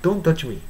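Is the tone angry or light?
light. It is said in a light, casual tone.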